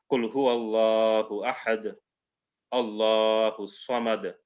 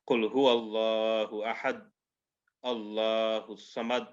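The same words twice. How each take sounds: First: Slow Quranic recitation with echoing qalqala on ahad; correct recitation. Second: Qul huwallahu ahad recited without the qalqala echo; wrong recitation. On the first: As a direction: recite slowly, bouncing the d of ahad. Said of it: "We won't say". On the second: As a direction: flatten the d of ahad, no bounce. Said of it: "We won't say that". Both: Shown as a demonstration.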